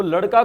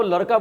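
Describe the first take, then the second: First: Said in the usual way. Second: लड़का pronounced "laraka". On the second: Retold or imitated. Teacher asking why the girl says it, लड़का with r. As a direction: swap the ड़ of लड़का for r. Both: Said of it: "ड की जगह पे वो र बोल रही है".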